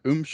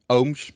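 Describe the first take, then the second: First: The name is said with an anglicized vowel. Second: The name is said with a Dutch vowel. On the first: This is how most people say it. The speaker calls it wrong. "most of them pronounce it like uh, Ooms or something like that" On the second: This is the real pronunciation of the name. The speaker calls it right. "But it's Ooms"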